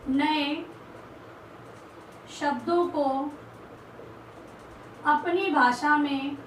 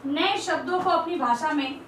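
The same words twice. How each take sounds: First: Slow, word by word with long pauses; slow dictation. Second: Said in the usual way. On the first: Shown as a demonstration. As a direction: dictate each word for students to write down. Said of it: "teacher dictating word by word". (धीरे-धीरे, एक-एक शब्द रुककर बोलना) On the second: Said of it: "teacher dictating point slowly".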